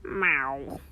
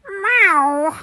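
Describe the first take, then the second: First: Deep, grumbling cat meow; a hungry cat's sulky growl of a meow; a cranky cat demanding food; grumpy low meow. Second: High cat meow. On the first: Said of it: "You sound a little hangry". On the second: Cat meows at Fortuna. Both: Acted.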